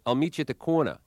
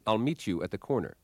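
First: The words are slurred and run together. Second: Each word is carefully and clearly enunciated. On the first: The speaker calls it wrong. "20 common speech demons, as they were called, things like" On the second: The speaker calls it right. "rather than"

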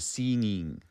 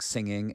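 First: The first vowel sounds like the 'ee' in 'seen'. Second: The first vowel sounds like the 'i' in 'sin'.

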